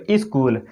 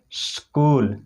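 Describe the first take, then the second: First: "स्कूल" said as iskool with a vowel added before the s; "स्कूल" as iskool, the wrong way; wrong pronunciation. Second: "स्कूल" said as skool, s and k together with no vowel before or between them; "स्कूल" with a tight sk cluster; correct pronunciation. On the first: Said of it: "कई लोग ऐसे कहते हैं". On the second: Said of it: "इसको कैसे पढ़ सकते हैं". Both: Shown as a demonstration.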